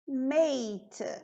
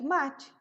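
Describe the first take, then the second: First: The vowel is a long 'ay' sound. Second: The vowel is an open 'ah' sound. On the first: "se eu escrevesse mate como nós escrevemos aqui, a pronúncia ficaria mate" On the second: "a gente usa ela do nosso jeito"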